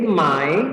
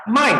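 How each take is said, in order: First: Dipping "mai", meaning buy; third tone. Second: "mai" falling sharply from high; fourth tone. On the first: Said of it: "Ini nada ketiga". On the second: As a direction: Mandarin falling-tone "mai", meaning sell. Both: Shown as a demonstration.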